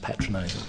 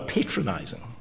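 First: The word is said in a British accent. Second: The word is said in an American accent. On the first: "I think you'll find it's pronounced patronizing" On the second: "this is going to be my American accent"

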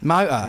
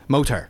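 First: It is said in a London accent. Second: It is said in a Somerset accent.

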